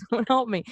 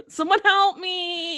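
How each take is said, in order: First: Mock helpless plea. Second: Slow, higher whimper; mock helpless plea. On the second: Friend's helpless stoned plea, slow whimper. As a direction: drag it out helplessly. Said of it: "I don't know".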